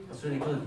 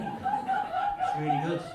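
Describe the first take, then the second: First: Said in the usual way. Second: Sarcastic. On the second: Acted. Mock praise of subtitles.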